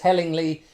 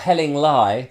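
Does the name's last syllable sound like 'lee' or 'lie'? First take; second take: lee; lie. First: The last syllable sounds like 'lee'. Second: The last syllable sounds like 'lie'. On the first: The speaker calls it wrong. "get told off for mispronouncing that" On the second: The speaker calls it right. "or Helling Lie, beg your pardon"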